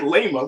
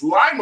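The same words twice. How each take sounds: First: The name is said like Lima, Peru. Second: The name is said the local Ohio way. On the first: The speaker calls it wrong. "I said Lima" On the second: The speaker calls it right. "but it's Lima, Ohio"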